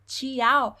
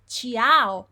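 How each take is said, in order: Both takes have the same delivery.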